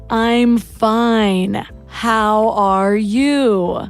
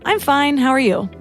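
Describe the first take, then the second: First: The phrase is said at a slower pace. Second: The phrase is said at a quicker pace. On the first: The speaker is pausing to think. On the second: It is an automatic reply. "I had my autoresponder on"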